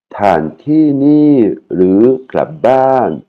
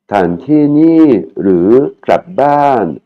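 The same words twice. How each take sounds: First: Very slow, raised Thai phrase again; slow repeat. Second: Very slow, raised Thai phrase; slow vendor question. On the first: Teacher repeating the vendor's question for learners, slow. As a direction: repeat it syllable by syllable. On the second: Teacher voicing the vendor's question to students, slow and high. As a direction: spell out each syllable slowly for learners. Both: Shown as a demonstration.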